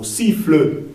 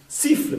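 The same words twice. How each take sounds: First: "siffle" ending in a clear fleu; two-syllable "siffle"; sounded final E. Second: "siffle" ending lightly on FL; one-syllable "siffle", no final vowel; final E silent. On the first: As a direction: add a full eu to the end of "siffle". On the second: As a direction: stop "siffle" on the consonants. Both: Shown as a demonstration. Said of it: "podría decir, o siffle".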